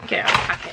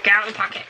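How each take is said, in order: First: 1 whispered. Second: Said in the usual way. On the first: Real, not acted.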